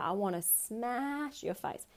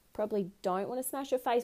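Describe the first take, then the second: First: Slow, softer menacing line; mock rage. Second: Said in the usual way. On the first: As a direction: let the fake fury simmer slowly. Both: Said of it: "Bit aggressive".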